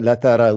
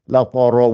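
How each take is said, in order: First: Every sound is light and thin. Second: Every sound is heavy and full. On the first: "Donc ils vont rien gonfler" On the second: "ils vont tout faire gonfler ... ils vont faire cette erreur-là"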